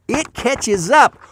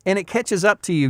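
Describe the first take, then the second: First: It catches up, slow and higher, every word stretched; drawn-out warning. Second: Said in the usual way. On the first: Shown as a demonstration. Warning repeated, slowed, drawn out.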